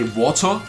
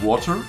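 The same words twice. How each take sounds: First: The word has a hard German t. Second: The word has a soft American t. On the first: "like I say" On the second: "instead of saying"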